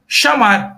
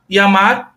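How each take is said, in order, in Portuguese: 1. O ll é dito com o som argentino, parecido com 'sh'. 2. O ll é dito com o som comum, não argentino.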